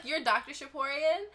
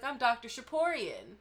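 First: High, rising disbelief; shocked. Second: Said in the usual way. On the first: Retold or imitated. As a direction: react in stunned disbelief. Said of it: "And I was like". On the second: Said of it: "And he was like".

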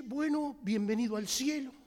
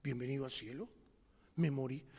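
First: Said in the usual way. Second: Much lower, softer repeat of the welcome; hushed, stunned. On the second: Acted. Dead man repeating heaven's welcome, low and stunned. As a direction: let it sink in, low and faint. Echoed welcome, realizing death.

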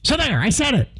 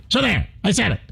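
First: A hint of a gruff talk-radio host; Mark Levin impression. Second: A hint of a combative radio host; lightly voiced Mark Levin, defiant; Mark Levin impression. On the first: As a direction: lightly imitate Mark Levin declaring it. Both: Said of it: "That's my Mark Levin imitation".

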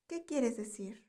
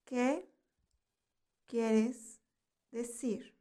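First: Said in the usual way. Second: "¿Qué quieres decir?" one word at a time, long pauses between; word-by-word teaching. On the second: Shown as a demonstration. Teacher lets learners repeat "¿Qué quieres decir?", word by word with pauses.

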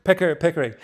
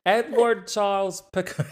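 First: Said in the usual way. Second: Put-on a half-laughing go at a Boston accent, a bit higher; attempted Boston accent. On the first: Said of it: "I can't do the accent". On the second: Guest tries the Boston accent on the name, laughing. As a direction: try the name in a playful, failed Boston accent. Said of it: "I can't do the accent, but I like it".

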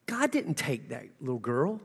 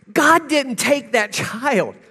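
First: Quiet, gentle and sinking; hushed and low; soft retelling. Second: Higher, slow and firm; slow, firm insistence; emphatic repeat. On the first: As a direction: say it low and tender to a grieving woman. Tells grieving lady, softly first. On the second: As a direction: drive the point home. Repeats the claim, now emphatic. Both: Retold or imitated.

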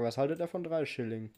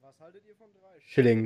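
First: Said in the usual way. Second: Loud hammed-up echo of the clip line; loud mock repeat of the movie line; mock pirate quote. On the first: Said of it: "Das ist die Frage". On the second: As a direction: bellow it like the harbour master.

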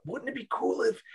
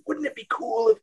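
First: Put-on high-pitched eager kid; excited kid voice. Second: Put-on high-pitched eager twelve-year-old; excited kid voice. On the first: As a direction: gush it like a twelve-year-old. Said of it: "Of the". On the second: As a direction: gush like a kid with an idea. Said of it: "a twelve-year-old going".

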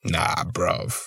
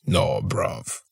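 First: British slang, softer. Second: British slang, whispered. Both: Retold or imitated. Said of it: "that's that English shit".

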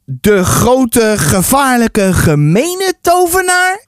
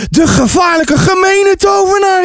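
First: Slow, drawn-out question climbing high; questioning repeat. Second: Put-on high, dramatic child's alarm; crying out. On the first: Acted. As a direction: repeat it slowly, building to a question. Narrator repeats boy's claim, questioning. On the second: A narrator's reading. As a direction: cry out like an alarmed boy. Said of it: "riep Ties uit".

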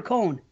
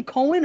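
First: Cohen said like "cone"; one-syllable Cohen. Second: Cohen said as KOH-in; two-syllable Cohen. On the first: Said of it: "Cohen or Cohen". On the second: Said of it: "do you pronounce that name". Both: Shown as a demonstration.

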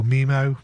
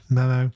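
First: Mimo, with an ee in the first syllable; alternative pronunciation. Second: Memo, with a short e in the first syllable; alternative pronunciation. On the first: Unsure host offering another pronunciation, Mimo with an ee. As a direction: say it MEE-moh, as Mimo. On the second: Unsure host going back to Memo, short e pronunciation. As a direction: say it MEM-oh, as Memo. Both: Shown as a demonstration. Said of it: "or Mimo, Memo".

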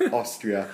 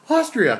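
First: Said in the usual way. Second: High, loud excited Australian outburst; hammed-up Aussie exclamation; mock Australian accent. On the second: Echoing the answer back in a film quote, excited Australian accent. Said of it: "that was a great Australian accent there".

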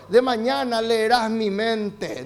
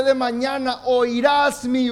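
First: Slow, even reading of the wrong verse; wrong version. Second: Slow and louder, leaning on voz; correct verse, emphasized. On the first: Preacher slowly gives the congregation the wrong verse. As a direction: lay out the wrong reading slowly before correcting it. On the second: Preacher corrects the congregation, slow and louder on voz. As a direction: proclaim it slowly, landing hard on voz. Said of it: "Él dice". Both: Shown as a demonstration.

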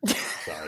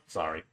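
First: Breathy whispered sorry. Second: Said in the usual way. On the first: Real, not acted. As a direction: whisper the apology.

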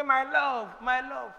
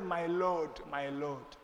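First: Higher, sweet "My love, my love"; affectionate wife. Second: Softer, lower "My Lord, my Lord", fading; bow your voice in respect; reverent wife. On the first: A modern wife sweetly calling her husband, tender. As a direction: coo it to your husband. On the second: Sarah addressing Abraham, quiet and reverent. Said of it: "Sarah said". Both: Retold or imitated.

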